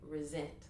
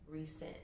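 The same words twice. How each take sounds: First: The middle consonant is a buzzing Z sound. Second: The middle consonant is a hissing S sound. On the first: This is the usual everyday pronunciation. "like it's a Z in there" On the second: This reveals the word's parts: sent again. "if we pronounce it as the S"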